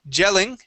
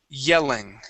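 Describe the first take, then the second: First: The word begins with a 'j' sound. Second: The word begins with a 'y' sound. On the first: The speaker calls it wrong. "instead of saying j- gelling, okay, using the Spanish Y there" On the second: The speaker calls it right. "you want to say y, yelling"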